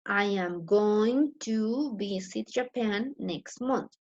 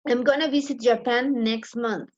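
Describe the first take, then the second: First: Each word is said fully and separately. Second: The words are reduced and run together. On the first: "The other way could be" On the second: "Number two"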